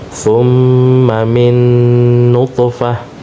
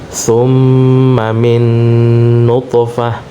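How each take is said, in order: No difference in how they are said.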